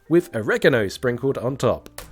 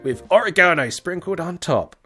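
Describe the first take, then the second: First: It is said with an American pronunciation. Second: It is said with a British pronunciation.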